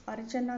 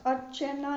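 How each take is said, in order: First: अर्चना with short A after CH; correct A vowel. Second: अर्चना with an E after CH; wrong E vowel. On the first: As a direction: say अर्चना as "archana". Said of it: "शुद्ध होता है". (अर्चना में "च" पर छोटा "अ") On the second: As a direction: say अर्चना as "archena". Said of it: "नहीं". (अर्चना को "अर्चेना" बोलें) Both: Shown as a demonstration.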